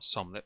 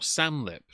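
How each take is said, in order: First: The first vowel sounds like the 'o' in 'som'. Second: The first vowel sounds like the 'a' in 'sam'. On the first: The speaker calls it wrong. "not Somlip ... not an O" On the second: The speaker calls it right. "Samlip, not Somlip. It's an A"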